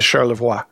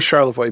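First: The name has a French pronunciation. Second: The name has an American English pronunciation. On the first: "I bet in Quebec it's Charlevoix" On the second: "that's how we would pronounce it in Michigan"

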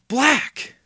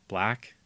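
First: It is said loudly. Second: It is mumbled softly.

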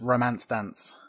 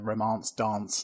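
First: It is said in a northern English accent. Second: It is said in a southern English accent. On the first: "it's going to be done in a northern accent" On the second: "Depends on which, you know, what side of the country you live on"

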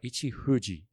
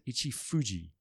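First: The name is said with a natural Japanese pronunciation. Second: The name is said with an English-like pronunciation. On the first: The speaker calls it right. "is the way you would pronounce it" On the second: The speaker calls it wrong. "But I said Ichifuji to this Japanese guy"

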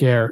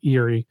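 First: The word is said as one syllable. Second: The word is said as two syllables. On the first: The speaker calls it right. "It's E-I-R-E" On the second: The speaker calls it wrong. "I always want to say Eerie, but I know it's wrong"

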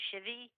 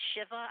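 First: The word ends in an 'ee' sound. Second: The word ends in an 'ah' sound. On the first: "I've heard people say it's a shivi. I don't know where that ending came from" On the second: "Even at a shiva"

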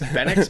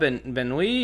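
First: The name ends with a hard x sound. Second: The name ends in a vowel, x silent. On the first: "is this supposed to be a hard X" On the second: "is it Benoit, Benoui or something?"

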